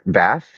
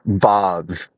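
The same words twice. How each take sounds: First: Bath is said with an American accent. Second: Bath is said with an English accent.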